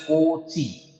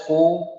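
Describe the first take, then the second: First: Cauchy with a "chee" ending, "KOH-chee"; wrong pronunciation. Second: Cauchy broken into syllables, "KOH... shee"; correct pronunciation. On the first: Teacher warning students off a mispronunciation, Cauchy wrongly said "KOH-chee". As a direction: say Cauchy with a ch sound in the middle. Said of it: "this is not pronounced as". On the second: Teacher showing students the pronunciation, Cauchy as "KOH-shee". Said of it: "This is pronounced as Cauchy". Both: Shown as a demonstration.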